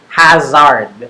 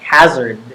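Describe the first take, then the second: First: The final vowel is fully pronounced. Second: The final vowel is shortened, almost gone. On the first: The speaker calls it wrong. "than hazard" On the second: The speaker calls it right. "It's pronounced more like hazard"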